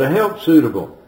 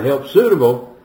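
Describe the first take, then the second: First: The stress falls on the word help. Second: The stress falls on the word suitable. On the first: She is above all a help. The speaker calls it right. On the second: Her suitability matters more than her helping. The speaker calls it wrong.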